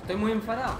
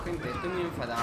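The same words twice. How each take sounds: First: Loud angry. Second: Said in the usual way. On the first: Real, not acted.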